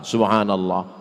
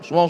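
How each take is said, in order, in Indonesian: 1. Frasa ini diucapkan pelan-pelan dan jelas. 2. Frasa ini diucapkan sangat cepat.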